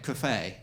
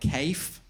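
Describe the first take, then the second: First: The word is said with a continental pronunciation. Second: The word is said with a North London pronunciation. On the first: The speaker has travelled abroad. The speaker calls it right. "I've actually been to the continent, so I know how to pronounce it properly" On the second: The speaker has not travelled abroad. The speaker calls it wrong. "from North London are probably saying stuff like cafe. That's embarrassing"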